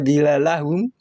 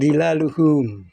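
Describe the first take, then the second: First: The word has an 'a' before -hum. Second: The word has a 'u' before -hum. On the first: The speaker calls it wrong. "atau dhilalahum" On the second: The speaker calls it right. "tapi dhilaluhum"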